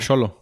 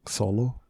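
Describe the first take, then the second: First: The name is said with a Spanish-style pronunciation. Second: The name is said with an American-style pronunciation.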